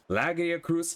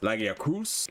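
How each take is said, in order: First: The stress is on the first syllable. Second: The stress is on the fourth syllable.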